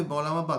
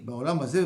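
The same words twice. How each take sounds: First: Haba pressed with a falling end; stress on Haba. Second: Hazeh lifted with a rising end; stress on Hazeh. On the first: Teacher contrasts the world to come, Haba falling. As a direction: land firmly on Haba, tune falling. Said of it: "et tu sers Baolam Haba". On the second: Teacher sets this world against the next, Hazeh rising. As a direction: lean on Hazeh, tune rising. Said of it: "Toi, tu, tu sers pour ce Olam Hazeh". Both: Shown as a demonstration.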